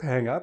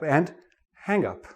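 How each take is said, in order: First: The stress falls on the second part. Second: The stress falls on the first part. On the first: It is used as a verb. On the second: It is used as a noun.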